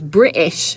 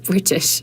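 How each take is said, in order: First: The t sound in the middle is dropped. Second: The t sound in the middle is fully pronounced. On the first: "tend to drop our T's. And so it comes off as British" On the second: "instead of British"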